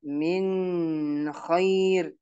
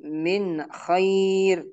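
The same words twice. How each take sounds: First: Long held N in "min"; wrong held nun. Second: Short clear N in "Min"; correct clear nun. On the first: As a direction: hum on "min" before "khair". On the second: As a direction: go straight from "Min" into "khair". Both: Shown as a demonstration. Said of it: "tidak boleh kita membacanya".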